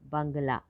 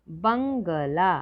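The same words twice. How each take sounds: First: Said in the usual way. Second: Slow spelled-out word. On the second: Shown as a demonstration.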